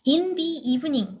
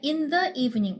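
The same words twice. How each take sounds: First: The word 'the' is pronounced 'thee'. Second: The word 'the' is pronounced 'thuh'. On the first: "in the evening 이라고 생각하시죠?" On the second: "모음으로 시작하고 있음에도 더라고 얘기하는 경우 있어요"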